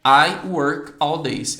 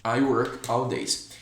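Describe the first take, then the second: First: Very slow, loud I work all days; teacher drilling the correct sentence; slow model sentence. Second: Said in the usual way. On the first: Shown as a demonstration. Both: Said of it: "eu teria que falar assim".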